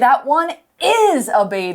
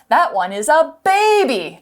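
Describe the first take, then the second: First: The stress falls on the word is. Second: The stress falls on the word baby. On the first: Contrary to doubt, it really is a baby. "we're stressing the word" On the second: It is a baby, not an adult. "not an adult"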